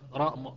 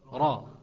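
Both takes have the same delivery.

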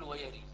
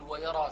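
First: The final vowel is fully raised toward e. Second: The r is heavy and the final vowel open. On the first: "أو أنوي حمزة والكسائي أقول ويري، بعد أسويها إمالة" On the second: "وأخذت تفخيم الراء وعدم الإمالة"

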